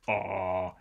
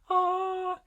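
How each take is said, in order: First: The sound is made at a low pitch. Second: The sound is made at a high pitch. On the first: "we perceive that as a lower pitch" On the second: "we perceive that as a higher pitch"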